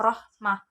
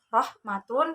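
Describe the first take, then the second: First: The word ends with a breathy h sound. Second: The word ends with t, a vowel and n. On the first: The reading stops at this word. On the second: The reading continues past this word.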